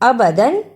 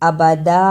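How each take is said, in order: First: The word ends with an n sound. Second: The word ends on a long a vowel. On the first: The reciter continues without stopping. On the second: The reciter stops at this word.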